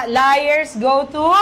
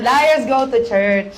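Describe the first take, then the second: First: TO stretched out and rising; drawn-out, rising unfinished "go to"; fill-in prompt. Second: Slow, settling finish on CHURCH; measured "liars go to church", no rising hang; confirming the answer. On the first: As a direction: leave "to" hanging upward for the crowd to finish. Prompts congregation to finish saying. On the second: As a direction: complete the line slowly, coming down to "church". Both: Real, not acted.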